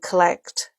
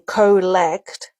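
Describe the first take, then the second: First: The first vowel is a weak, reduced schwa. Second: The first vowel is a full, clear o. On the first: The speaker calls it right. "we're saying collect" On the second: The speaker calls it wrong. "we're not saying collect"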